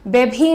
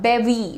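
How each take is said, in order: First: The middle consonant is an aspirated 'bh' sound. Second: The middle consonant is a 'v' sound. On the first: The speaker calls it wrong. "बेभी नहीं, भी मत बोलना" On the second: The speaker calls it right. "That's the pronunciation"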